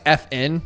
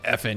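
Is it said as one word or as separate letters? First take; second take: separate letters; one word. First: It is said as two separate letter names. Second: It is run together as one word. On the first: It refers to the function keys. "like, you know, the function keys" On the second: It is a mild curse word. "not like F N"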